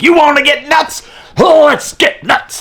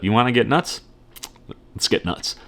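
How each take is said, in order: First: It is said in a freaked-out, frantic way. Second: It is said in a calm, controlled way.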